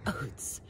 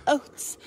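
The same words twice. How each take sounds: First: Whispered. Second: Squeaky high. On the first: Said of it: "repeated oats chant, whispered take". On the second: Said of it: "repeated oats chant, high squeaky take". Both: Shown as a demonstration.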